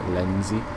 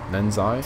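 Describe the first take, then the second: First: The last syllable sounds like 'zee'. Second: The last syllable sounds like 'zye'. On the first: "I'm sure that's how you pronounce it"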